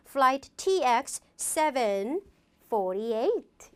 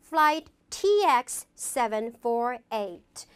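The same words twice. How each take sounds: First: Slow "flight T X seven", pause, then "forty-eight" as one unit; grouped digits. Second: Slow "flight T X seven four eight", each letter and digit separate. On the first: Teacher showing how to chunk a flight number, grouped digits. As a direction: break before FORTY-EIGHT and join it as a pair. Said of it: "두 개씩 끊어 읽는 거예요". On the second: Teacher showing how to read a flight number, digit by digit. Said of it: "하나하나 하나 읽으면 됩니다". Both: Shown as a demonstration.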